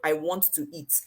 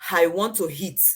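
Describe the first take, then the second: First: It is said with the standard pronunciation. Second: It is said with the H-factor pronunciation.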